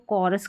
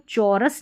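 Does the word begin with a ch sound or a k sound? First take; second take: k sound; ch sound. First: The word begins with a k sound. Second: The word begins with a ch sound. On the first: The speaker calls it right. "इसको कॉरस करके पढ़ेंगे" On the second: The speaker calls it wrong. "इसको चौरस नहीं पढ़ते"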